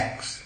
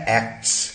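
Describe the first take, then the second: First: "एक्ट्स" with no t, like "aks"; dropped t. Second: "एक्ट्स" with k, t and s all sounded; full-cluster pronunciation. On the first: Teacher showing connected speech, t-dropped pronunciation. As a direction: go straight from k to s in "एक्ट्स", softly. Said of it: "ट हट जाता है". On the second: Teacher showing the spelled-out word, full-cluster pronunciation. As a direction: keep the t in "एक्ट्स". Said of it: "एसीटीएस, बनता है". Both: Shown as a demonstration.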